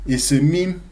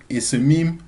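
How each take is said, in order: No difference in how they are said.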